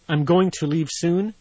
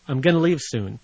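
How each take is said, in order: First: 'Going to' is said in full, two words. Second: 'Going to' is reduced to 'gonna'.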